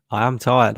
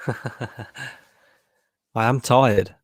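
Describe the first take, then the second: First: Said in the usual way. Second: Slow words through a yawn; stifle a yawn while speaking. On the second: Real, not acted. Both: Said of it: "Trying to hide that yawn".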